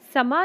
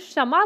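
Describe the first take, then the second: First: The word begins with a plain 's' sound. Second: The word begins with a 'ksh' sound. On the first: The speaker calls it wrong. "समा नहीं बोल रहे" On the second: The speaker calls it right. "हम क्षमा बोल रहे हैं"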